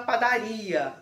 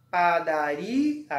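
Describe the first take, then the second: First: Said in the usual way. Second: "Padaria" slowly split up, with a long rising "ri"; syllable by syllable, stressed RI. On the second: Shown as a demonstration. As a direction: sound out "Padaria" in pieces, leaning on "ri" before the final "a". ("Padaria" devagar, sílaba por sílaba, destacando o "ri") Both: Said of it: "Então, é paroxítona".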